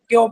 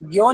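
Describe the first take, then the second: First: The syllable starts with a tense k sound. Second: The syllable starts with a soft g sound. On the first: The speaker calls it right. "आप इसे ग नहीं बल्कि क के साथ प्रोनाउंस करेंगे" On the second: The speaker calls it wrong. "ग्यो नहीं पढ़ा जाएगा"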